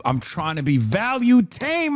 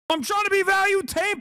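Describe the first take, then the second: First: Said in the usual way. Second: Jumps way up high, teasing; mocking high repeat. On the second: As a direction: say it again in a much higher mocking voice. Repeats his own line mockingly.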